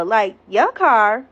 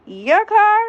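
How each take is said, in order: First: Drawn-out questioning your car; slow incredulous echo to the ex; slow disbelieving echo. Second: Much higher, louder outraged your car; shrieked disbelief at the ex's claim; incredulous shriek. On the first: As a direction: stretch it out slowly in disbelief. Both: Retold or imitated. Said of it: "I'm looking at him like".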